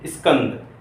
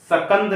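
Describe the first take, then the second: First: A short i sound comes before the s. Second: A vowel is inserted between the s and k. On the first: "इससे पहले हमारे मुंह से ई की ध्वनि आती है" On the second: "ये सकंद नहीं बोल सकते"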